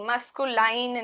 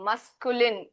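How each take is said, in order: First: The last syllable has a long 'eye' vowel. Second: The last syllable has a short 'i' vowel. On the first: The speaker calls it wrong. "मस्कुलाइन नहीं" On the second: The speaker calls it right.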